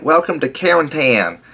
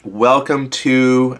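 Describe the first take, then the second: First: Tennessee Southern accent, pitched higher. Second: Said in the usual way. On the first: Shown as a demonstration. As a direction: greet them like a Tennessee local in a Southern accent. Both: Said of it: "in my best Southern accent".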